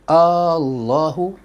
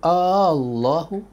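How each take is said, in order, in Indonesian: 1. Vokal pertama dibaca panjang. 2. Vokal pertama dibaca panjang.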